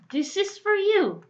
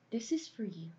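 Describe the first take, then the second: First: It is said furiously, with anger. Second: It is said warmly, with a smile. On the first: This happened because of the listener. "만약에 미친 듯이 화내면서 말하면 3번이야" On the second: This is a gift for the listener. "만약에 웃으면서 말하면 몇 번이야? 1번이야"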